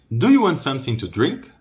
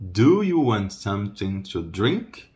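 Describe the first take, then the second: First: Flowing, higher-pitched question; conversational, rising question; natural speed. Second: Slow, evenly spaced question; unhurried teaching question, rising end; slow model. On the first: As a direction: ask it in one linked run. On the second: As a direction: stretch the phrase for learners. Teacher slows the same question. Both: Shown as a demonstration.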